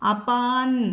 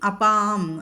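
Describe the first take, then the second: First: The word ends with an n sound. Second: The word ends with an m sound. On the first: The nasal matches the following consonant by rule. "അപ്പോൾ അപാന്ന് ചൊല്ലണം അല്ലേ. അപാൻ എന്ന് വരും അവിടെ" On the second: The plain nasal is kept as written. "അപാം നിധിര അങ്ങനെയും ചൊല്ലും"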